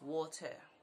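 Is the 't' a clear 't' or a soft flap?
clear t. The t in the middle is a clear, crisp t. The speaker calls it right. "but it is water"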